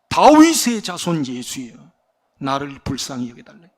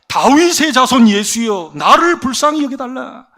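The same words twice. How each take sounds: First: It is said at a softer volume. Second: It is shouted at a louder volume.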